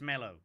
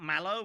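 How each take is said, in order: First: The first vowel sounds like the vowel in 'bed'. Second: The first vowel sounds like the vowel in 'cat'. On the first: The speaker calls it right. "It's mellow" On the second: The speaker calls it wrong. "It's not mallow"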